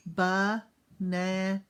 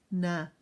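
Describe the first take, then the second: First: "Banana" stretched slowly, one jaw drop per syllable; slow chin-drop syllables. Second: Said in the usual way. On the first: Shown as a demonstration. Teacher to kids, slow chin-drop counting. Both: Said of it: "How many times did my chin drop".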